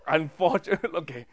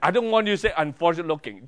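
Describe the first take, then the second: First: Chuckling through the phrase; laughing. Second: Laughing. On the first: Teacher demoing the polite wording, laughing. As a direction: laugh as you say the polite word. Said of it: "Just say the word ugly". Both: Shown as a demonstration.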